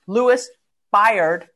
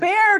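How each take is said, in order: First: The name rhymes with the word tired. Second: The name does not rhyme with tired. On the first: "which rhymes with tired" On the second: "Baird has but, a more noble sound to it"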